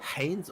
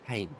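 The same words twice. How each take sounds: First: The opening H is breathed strongly. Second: The opening H is soft or dropped. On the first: "how hard your letter H is" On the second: "just Haynes"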